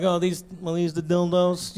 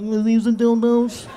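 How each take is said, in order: First: Said in the usual way. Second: Slow, laughing, mortified question; embarrassed laughing. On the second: Retold or imitated. Embarrassed asking the clerk, laughing. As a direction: squirm through it with a laugh. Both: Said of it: "You know how humil".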